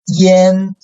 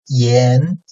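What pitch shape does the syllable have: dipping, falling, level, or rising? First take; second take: level; rising. First: The pitch stays high and level. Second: The pitch rises from mid to high.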